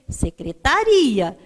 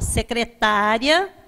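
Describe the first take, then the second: First: The stress falls on the syllable ri. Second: The stress falls on the syllable ta. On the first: It names a government department or office. "Se não tem acento, você lê secretaria" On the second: It names a person who works as a secretary. "As paroxítonas vão ter acento terminado em ia"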